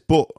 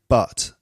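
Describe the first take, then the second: First: The vowel has a northern English, Manchester sound. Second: The vowel has a southern English, received pronunciation sound. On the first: "He says but" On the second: "I say but"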